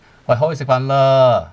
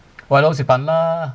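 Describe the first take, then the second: First: 啦 at the end not rising, just a weary, frustrated push. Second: 啦 at the end said with a rising, angry tune. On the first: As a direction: say 好去食飯啦 fed up but not angry. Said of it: "not very angry, but you are frustrated". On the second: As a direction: let 食飯啦 climb at the end, getting annoyed. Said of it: "if you have a rising tone... pretty angry". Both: Shown as a demonstration.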